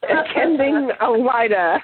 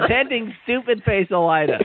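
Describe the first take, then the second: First: Attending Elida said slowly and pointedly; slow, deliberate Attending Elida; corrected title. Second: Attending Stupid Face Elida read with a high teasing lift; mock chapter title. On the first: Shown as a demonstration. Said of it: "the chapter is entitled Attending Elida". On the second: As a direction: read the silly title deadpan as if real. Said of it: "It says".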